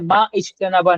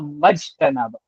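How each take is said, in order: First: The initial vowel is pronounced, words kept separate. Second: The initial vowel is dropped, words run together. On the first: The speaker calls it wrong. "मा इज्तनाबा नहीं कहूँगा" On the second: The speaker calls it right. "मैं कहूँगा मज्तनबा"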